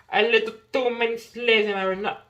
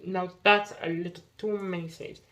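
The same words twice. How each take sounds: First: Louder, higher mock British accent; hammy British-accented repeat, for fun. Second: Said in the usual way. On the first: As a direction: toss in a playful British accent. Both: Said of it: "I must have this British accent".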